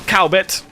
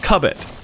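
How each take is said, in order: First: The first syllable sounds like 'cow'. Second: The first syllable sounds like 'cub'. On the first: The speaker calls it wrong. "Not Cowbit" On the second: The speaker calls it right. "That is the town of Cubbit"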